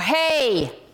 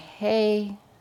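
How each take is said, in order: First: It is said loudest and most forcefully. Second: It is said softly and gently.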